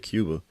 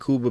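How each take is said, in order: First: It is said with an English pronunciation. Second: It is said with a Spanish pronunciation. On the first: "I say Cuba" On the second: "that's how you say it in Spanish"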